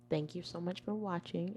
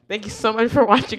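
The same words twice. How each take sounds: First: It is said in a soft, quiet voice. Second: It is said in a loud, strong voice. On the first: The speaker calls it wrong. "You talk soft" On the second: The speaker calls it right. "This is loud enough for you"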